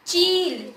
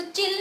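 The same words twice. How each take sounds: First: चील with a strong, drawn-out ई; forceful long vowel. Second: चिल with a quick short इ; wrong short vowel. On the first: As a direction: stretch and push the ई in चील. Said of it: "शब्द को मैं जोर से पढ़ रही हूँ". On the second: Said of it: "इसको चिल नहीं पढ़ेंगे". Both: Shown as a demonstration.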